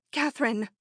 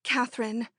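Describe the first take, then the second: First: A called name, pushed out with more force; cried out. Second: Said in the usual way. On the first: A narrator's reading. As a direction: call her name out urgently. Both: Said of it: "she cried".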